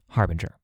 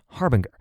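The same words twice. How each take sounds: First: The ending does not rhyme with linger. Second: The ending rhymes with the word linger. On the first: The speaker calls it right. "it's pronounced harbinger" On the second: The speaker calls it wrong. "which would more or less rhyme with linger. This was wrong"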